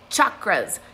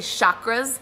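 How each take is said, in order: First: The word is said the original Sanskrit way. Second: The word is said the common everyday way. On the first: The speaker calls it right. "not the word, chakras" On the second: The speaker calls it wrong. "a lot of people say chakras"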